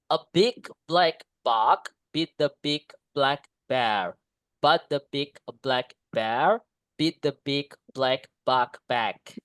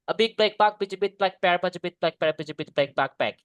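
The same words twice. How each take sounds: First: It is said slowly. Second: It is said very fast.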